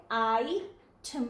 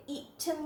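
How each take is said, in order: First: "आई ठम" opening on "eye", then a break; long vowel I. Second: "ईठम" begun with an i sound instead of long "eye"; wrong short vowel. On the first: Teacher showing the right reading, long I. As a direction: say "आई ठम" with the first vowel as its letter name. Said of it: "ठम पढ़ेंगे". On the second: Teacher showing learners the misreading, wrong first vowel. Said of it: "इसे ईठम नहीं पढ़ेंगे बल्कि आई". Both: Shown as a demonstration.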